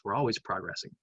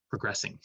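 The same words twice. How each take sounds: First: Progressing with the stress on the wrong syllable, PRO-gressing. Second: Progressing with the stress on the middle syllable, pro-GRES-sing; corrected stress. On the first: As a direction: slip on the stress of progressing, first syllable too strong. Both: Real, not acted. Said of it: "I put the emphasis on the wrong syllable".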